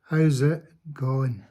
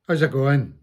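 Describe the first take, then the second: First: It is said more slowly. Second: It is said at a normal pace.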